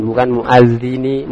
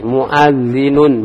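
First: Muadzini said slowly as the error; muadzini, rising, marked as wrong; wrong form named. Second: Muadzinun stretched slowly, ending -un; slow model reading. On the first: Teacher contrasts the wrong reading, slow. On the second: Teacher repeats the correct form for students, slow and careful. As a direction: say Muadzinun slowly, stressing the nunation. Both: Shown as a demonstration.

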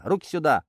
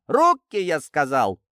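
First: Higher angry command with a falling end, not yet full yell; firm angry order. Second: Much higher and louder on Руки, then drops; escalated furious yell. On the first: Sergeant ordering the detainee's hands over, angry command. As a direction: demand it once, sharply. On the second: Sergeant repeating the order to the detainee, furious yell. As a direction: blow up when he won't obey. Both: Acted. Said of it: "зло скомандовал сержант".

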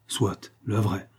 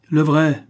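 First: Slow, drawn-out "Soit, le vrai" in a mild mocking give-in; mock concession. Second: Louder, higher punch on "Le vrai"; indignant correction. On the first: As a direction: concede "Soit, le vrai" slowly, humouring him. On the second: Acted. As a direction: snap back "Le vrai" with the stress on "Le". Rocambole insists on true marquis.

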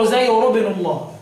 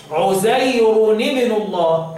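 First: عزير ابن الله run straight together as 'uzayru-bnu; no n between عزير and ابن; quick عزير ابن الله, plain -ru ending; without tanween. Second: Very slow عزير ابن الله, as 'uzayruni-bnu; recited عزير ابن الله, nunation sounded with an i; tanween with kasra. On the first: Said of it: "من غير تنوين". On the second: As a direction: stretch it and link عزير to ابن with -ni. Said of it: "بالكسر". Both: Shown as a demonstration.

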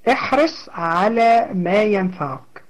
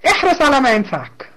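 First: Said again slowly, settling the point; slower second take, letting احرص sink in; slow repeat. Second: Said in the usual way. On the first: Shown as a demonstration. Teacher repeats the hadith slowly to her students.

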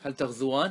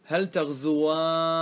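First: Said in the usual way. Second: تغزواني as taghzuwaanni, long aa and nn; emphatic nun. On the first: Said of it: "هذا ما في توكيد". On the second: Shown as a demonstration. Teacher adds nun for the dual, stretching تغزواني into long aa-nni. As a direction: draw out تغزواني slowly, ending on doubled n plus i. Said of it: "فإذا أدخلت النون".

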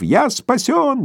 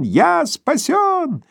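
First: Jubilant. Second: Higher, drawn-out joyful cry; ecstatic, slower and higher. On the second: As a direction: stretch it out in rapture. (восторженный протяжный возглас) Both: Acted. Korotkov rejoicing.

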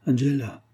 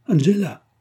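First: Calling out. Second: A sudden high, loud cry of her name; husband crying out to his dead wife in horror; anguished cry. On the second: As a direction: call out Angela in anguish, much higher. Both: A narrator's reading. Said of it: "tira les rideaux et s'écria".

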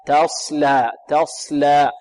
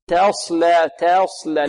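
First: تصلى starting with an open, untilted "ta"; correct light ta. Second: تصلى starting with "te", over-thinned; wrong tilted ta. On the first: Teacher corrects the tilt, correct light ta. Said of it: "لا، تاء". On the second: Teacher imitates over-thinning readers, wrong tilted ta. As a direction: tilt the first vowel of تصلى toward e. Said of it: "يريد أن يرقق فيميل". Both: Shown as a demonstration.

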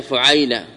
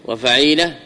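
First: فعيلة with u, then the diphthong ay; first pattern, fu'ayla. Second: وفعيلة with a, then long ee; second pattern, fa'ila. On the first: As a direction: say فعيلة as fu-'AY-la. (فعيلة بضم الفاء وفتح العين) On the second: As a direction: say وفعيلة as wa-fa-'EE-la. (وفعيلة بفتح الفاء وكسر العين) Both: Shown as a demonstration. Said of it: "هل ثم فرق بين".

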